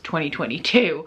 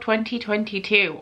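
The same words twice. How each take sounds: First: The syllables are slurred and run together. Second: Each syllable is pronounced clearly and fully.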